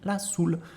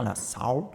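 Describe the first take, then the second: First: The word soul is pronounced the French way. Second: The word soul is pronounced in a non-French way. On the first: The speaker calls it right. "Donc en français, on dit la soul" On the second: The speaker calls it wrong. "Attention à ne pas dire la soul, parce que la soul, euh, euh, c'est pas la prononciation"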